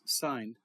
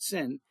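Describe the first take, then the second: First: The vowel is long, rhyming with 'line'. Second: The vowel is short, rhyming with 'in'. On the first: The speaker calls it right. "the real way of saying it is sine" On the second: The speaker calls it wrong. "sin is not sin"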